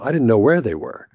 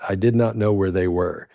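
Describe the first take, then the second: First: "Did not" is contracted to "didn't". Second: "Did not" is said in full, uncontracted. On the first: The speaker calls it right. "You make it shorter. You contract it" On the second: The speaker calls it wrong. "You don't say it like that"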